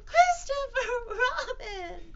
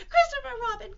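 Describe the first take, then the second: First: Slow, very high loud wail; drawn-out cry. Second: Quick, very high loud squeal; crying out. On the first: Piglet appealing to Christopher Robin, long wailing cry. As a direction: stretch each syllable of the name in a squeal. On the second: Piglet seeing Christopher Robin come in, quick high cry. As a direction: squeal the name in one rush. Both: Acted. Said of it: "cried Piglet".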